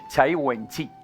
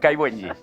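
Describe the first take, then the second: First: The name is pronounced the Chinese way. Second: The name is pronounced the Spanish way. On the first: "a mí me lo enseñó una, la chica china" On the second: "Pero bueno"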